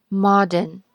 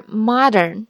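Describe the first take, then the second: First: Modern said slowly with rounded o, no R; slow British modern, mod-n. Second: Modern said slowly with open ah vowel; slow American modern, mah-dern. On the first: Teacher repeats the British version. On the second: Teacher repeats the American version. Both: Shown as a demonstration. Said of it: "这两个不一样".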